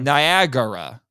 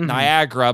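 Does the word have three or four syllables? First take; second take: four; three. First: The word is said with four full syllables. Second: The second a is dropped, leaving three syllables. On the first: This is the correct form of the word. The speaker calls it right. "It's supposed to be Niagara" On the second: This is how people commonly say the word. The speaker calls it wrong. "that's how people tend to say it"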